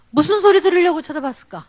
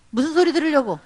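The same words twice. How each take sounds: First: 소리를 세게 올려 강조; 소리에 힘을 실어 묻기; stress on 소리. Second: Said in the usual way. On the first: Shown as a demonstration. (소리에 강세를 둔 질문)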